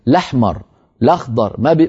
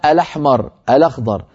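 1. كل كلمة تبدأ مباشرة بصوت 'l'. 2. كل كلمة تبدأ بحرف العلة 'a' قبل 'l'. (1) "يحذفون الهمزة من أولها" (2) "لا يقولون"

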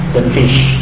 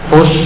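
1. Vokalnya bunyi i depan. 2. Vokalnya bunyi u yang membulat.

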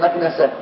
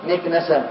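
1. الحركة الأولى هي a. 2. الحركة الأولى هي i.

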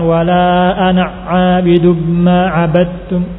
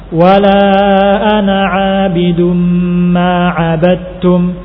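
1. Hurufnya terburu-buru dan saling menyambung. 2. Setiap huruf diselesaikan pelan-pelan sebelum huruf berikutnya. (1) "bukan ... ditabrak" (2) "Harusnya diselesaikan pelan-pelan"

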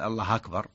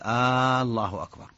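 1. تأتي بعد الراء الأخيرة فتحة. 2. تُمَدّ الحركة الأولى كأنها سؤال. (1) "فتح هذا سهل يعني" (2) "هذه استفهام، كأنه يسأل هل الله أكبر"

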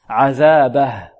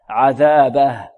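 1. تنتهي الكلمة بهاء ساكنة دون مدّ. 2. تنتهي الكلمة بهاء ساكنة دون مدّ.

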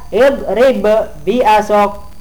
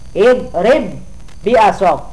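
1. Kedua bunyi b dilafalkan terpisah. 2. Kedua bunyi b menyatu menjadi satu bunyi panjang. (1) "tidak ibrib bi asok" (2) "wajib digabungkan"

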